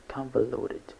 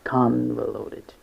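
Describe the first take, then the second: First: Said in the usual way. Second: "convoluted" slowly, with "con" stretched; slow teaching take of "convoluted", first syllable strongest; stress on first syllable. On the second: Shown as a demonstration. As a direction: lean long on the "con" of "convoluted". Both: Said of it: "The stress is on the first syllable".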